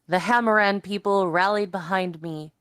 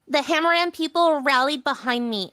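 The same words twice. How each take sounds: First: It is read in the reader's own voice. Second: It is read in Dalen's put-on voice.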